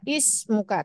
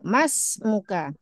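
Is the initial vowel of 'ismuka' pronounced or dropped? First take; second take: pronounced; dropped. First: The word starts with an audible 'i' vowel. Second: The 'i' vowel drops, linking straight from 'ma'. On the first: The word is read on its own. "kalau anak baca sendiri, berdiri sendiri, hamzah wasalnya terbaca" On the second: The word is read joined to the word before. "kalau kita baca lanjut, dari ma, maka hamzah wasalnya hilang"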